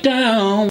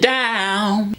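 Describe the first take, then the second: First: The vowel has slightly puckered, rounded lips. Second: The vowel is open, without rounded lips. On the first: "more like down. With a tiny bit of a pucker" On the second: "it wasn't down"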